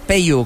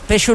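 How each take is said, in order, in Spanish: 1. La consonante del medio es el sonido «y». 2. La consonante del medio no es el sonido «y». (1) "Peyu, con i" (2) "No, Peixu no"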